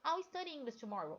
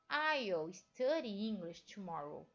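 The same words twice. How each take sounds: First: I'll is said quickly, reduced to sound like all. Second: I'll is said slowly and fully, like aisle. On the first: "Se você vai falar uma coisa rápida" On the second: "esse I'll é falado mais devagar"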